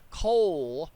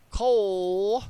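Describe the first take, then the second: First: The vowel is an oh sound. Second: The vowel is an oh sound.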